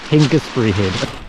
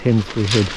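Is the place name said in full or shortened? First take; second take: full; shortened. First: The name is said in full, every syllable. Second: The name is shortened, with syllables dropped. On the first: The speaker calls it right. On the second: The speaker calls it wrong.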